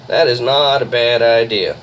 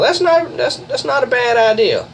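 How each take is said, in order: First: Said in the usual way. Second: Surprised. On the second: Real, not acted. Surprised reaction to teammate's plan.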